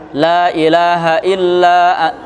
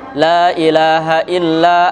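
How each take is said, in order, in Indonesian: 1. Vokal pada la tetap pendek. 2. Vokal pada la tetap pendek.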